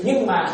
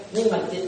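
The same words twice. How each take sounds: First: "nhưng mà" said with a falling, firm stop; stress on nhưng mà. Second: Said in the usual way. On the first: Shown as a demonstration. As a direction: hit "nhưng mà" as the turning point. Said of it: "cái chữ nhưng mà nó nổi sập". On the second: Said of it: "cái chữ nhưng mà".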